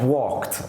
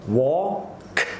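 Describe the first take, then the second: First: It is said quickly as one smooth word. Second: It is said slowly with its sounds separated. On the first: "then you start to say it quicker and quicker" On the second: "If you separate the sounds"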